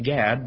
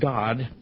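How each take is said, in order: First: The vowel sounds like the one in 'cat'. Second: The vowel sounds like the one in 'father'. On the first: This is the common English pronunciation. The speaker calls it wrong. "we pronounce it Gad" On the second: This is the original Hebrew pronunciation. The speaker calls it right. "but it's actually pronounced God"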